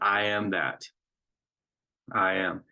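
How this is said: There is a pause after "that". "make that pause there and to allow the comma to be heard"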